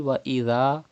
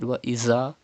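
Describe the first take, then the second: First: The consonant is a soft th. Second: The consonant is a hissing z. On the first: The speaker calls it right. "you have to read dhal without whistle" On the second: The speaker calls it wrong. "Do not read"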